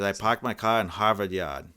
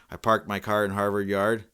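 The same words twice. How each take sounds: First: "parked" and "car" as "pahked" and "cah", in a Boston accent; Boston "Yard" said as "yahd"; Boston dropped R's. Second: Full hard R in "parked", "car", "Harvard" and "Yard"; careful non-Boston R's in "parked my car"; R's all pronounced. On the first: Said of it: "keeps some of the R's in". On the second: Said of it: "That just sounds weird". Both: Shown as a demonstration.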